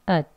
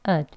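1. w 소리는 빠지고 짧은 모음만 남습니다. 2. w 소리는 빠지고 짧은 모음만 남습니다.

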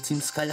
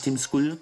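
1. Skull wird englisch ausgesprochen. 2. Skull wird nach deutscher Schreibweise gelesen. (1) "dass es Team Skull heißt" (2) "Nicht Team Skull"

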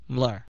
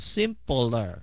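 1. Âm p và l được ghép lại với nhau. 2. Âm p và l được tách rời ra. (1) "cái chữ pê lờ rờ này đi chung với nhau nè ha, mình đọc chữ sim và chữ pler" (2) "đừng có đọc là simpler"

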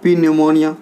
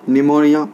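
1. शुरुआती p का उच्चारण होता है। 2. शुरुआती p का उच्चारण नहीं होता। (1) "बिल्कुल रॉन्ग है" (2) "पी साइलेंट है"

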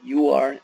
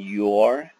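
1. Dos palabras separadas, dichas completas. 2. Unidas en una sílaba corta y contraída. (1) "you are se convierte en" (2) "se convierte en"

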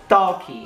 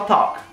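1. Um som de vogal 'ee' extra é adicionado depois do k final. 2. A palavra termina limpa, só no som do k. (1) "a gente fala esse I no final" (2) "mas na realidade seria só talk"

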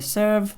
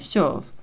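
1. Голосний — простий відкритий звук e. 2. Голосний — м'який звук, схожий на yo. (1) "не Е, не Serve" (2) "І не м'який знак О, не serve"

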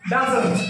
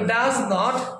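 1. একটা সংকুচিত শব্দে জোড়া লাগে, doesn't। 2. দুটো আলাদা শব্দ, does আর not। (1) "একসাথে উচ্চারণ করলে ডাজন্ট হবে" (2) "ডাজ আর নট"

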